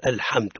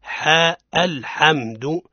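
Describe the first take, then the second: First: "الحمد" with the ha too heavy and dark, lower; mock error: thicken the ha in "الحمد"; over-emphatic ha. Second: "حاء الحمد" slowly, ha kept light and thin; correct light ha. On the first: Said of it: "هذا خطأ". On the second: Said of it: "الصواب هو". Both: Shown as a demonstration.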